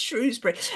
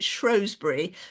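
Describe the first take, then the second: First: The name is said the ordinary way. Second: The name is said the posh way. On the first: "So now it's Shrewsbury" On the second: "I was brought up to pronounce it Shrewsbury, which I think is not how it's. Pro- I think that's kind of rather posh way"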